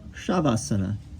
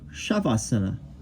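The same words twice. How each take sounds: First: The word begins with an sh sound. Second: The word begins with an sh sound.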